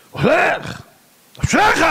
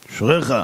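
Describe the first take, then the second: First: High-pitched shouted retort from the stern rabbi; shouted exclamation. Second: Said in the usual way. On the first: Acted. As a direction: shout it back high at the driver. Stern rabbi shouts back at driver. (קריאה רמה בצעקה)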